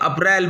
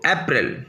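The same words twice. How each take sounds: First: It is said with a Hindi pronunciation. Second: It is said with an English pronunciation. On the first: "English के महीने को हिंदी में बोलते हैं तो अप्रैल बोलते हैं" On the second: "इंग्लिश के महीने को जब इंग्लिश में बोलते हैं तो अप्रैल"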